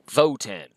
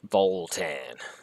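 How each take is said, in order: First: No L sound comes before the T. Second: An L sound comes before the T. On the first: The speaker calls it right. "No, Votan because they have tans" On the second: The speaker calls it wrong. "I can't stop pronouncing it that way"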